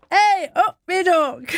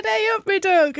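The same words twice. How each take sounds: First: High, slow mock American twang on hey up me duck; a light copy of [name]'s hey up me duck. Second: Mock [name] twang. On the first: Presenter echoing [name]'s greeting in a mock twang. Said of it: "you didn't quite get it right". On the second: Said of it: "[name] said".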